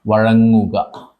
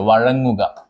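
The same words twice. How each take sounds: First: Very slow, stretched "വഴങ്ങുക"; drawn out. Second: Said in the usual way. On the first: Shown as a demonstration. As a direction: stretch "വഴങ്ങുക" very slowly, syllable by syllable. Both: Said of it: "repeated drawn out for dictation".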